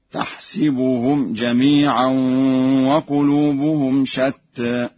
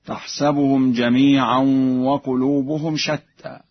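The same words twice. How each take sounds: First: "تحسبهم" with i under the sin, slow chant; Warsh reading. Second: Said in the usual way. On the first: Shown as a demonstration. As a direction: slowly recite "تحسبهم" as tah-si-bu-hum. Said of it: "بكسر السين في الفعلين معا هكذا". (تلاوة متأنية "تحسبهم" بكسر السين) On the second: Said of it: "بكسر السين في الفعلين".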